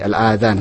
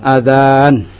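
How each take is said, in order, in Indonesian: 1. Vokal setelah dh dibaca pendek. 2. Vokal setelah dh dibaca panjang. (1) "Kalau al-adhan nanti maknanya beda lagi" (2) "Al-alif mamduda"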